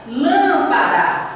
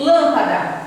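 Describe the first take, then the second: First: "Lâmpada" with a long, stretched LÂM; slow "Lâmpada", drawn out on "lâm"; stress on LÂM. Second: Said in the usual way. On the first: Shown as a demonstration. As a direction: linger on the first syllable of "Lâmpada". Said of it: "a antepenúltima é a sílaba". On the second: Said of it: "Você observa que aqui".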